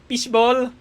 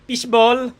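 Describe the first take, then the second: No difference in how they are said.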